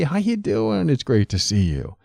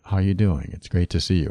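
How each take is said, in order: First: The pitch moves up and down a lot. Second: The pitch stays flat and monotone. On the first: "Is it very up and down" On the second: "More monotone"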